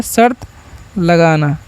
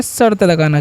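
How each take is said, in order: First: Split drill. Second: Said in the usual way. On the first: Shown as a demonstration. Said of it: "क्या होता है?". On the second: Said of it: "बेट का मतलब क्या होता है?".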